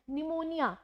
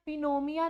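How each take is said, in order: First: Said in the usual way. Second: पिनोमिया with the p sounded and syllables swapped; wrong pronunciation. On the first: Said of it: "निमोनिया को हम निमोनिया पढ़ते हैं". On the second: Shown as a demonstration. Teacher showing students the wrong reading of pneumonia, p sounded. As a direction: say पिनोमिया with a spoken p. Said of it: "पिनोमिया नहीं पढ़ते हैं".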